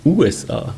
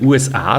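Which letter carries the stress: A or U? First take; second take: U; A. First: The stress falls on the first letter, U. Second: The stress falls on the final letter, A. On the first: "mit Betonung auf U" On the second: "mit Betonung auf A"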